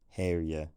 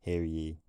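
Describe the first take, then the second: First: The pronoun is weakened to a short reduced vowel. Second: The pronoun is said in its full strong form. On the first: "Perhaps we should be saying" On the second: "instead of"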